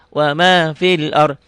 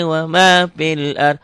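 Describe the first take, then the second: Both takes have the same delivery.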